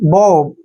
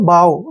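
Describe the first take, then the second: First: The vowel sounds like 'oh'. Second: The vowel sounds like 'ow'. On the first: The speaker calls it wrong. "इसको बो भी पढ़ते हैं" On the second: The speaker calls it right. "लेकिन सही जो है बाव होता है"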